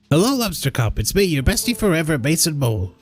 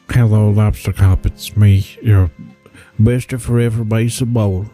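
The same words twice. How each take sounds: First: It is read in a plain, natural voice. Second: It is read in a put-on character voice.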